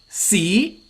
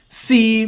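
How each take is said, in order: First: The syllable is said in the second tone. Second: The syllable is said in the third tone. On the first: It means history. "C means history" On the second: It means try. "C means try"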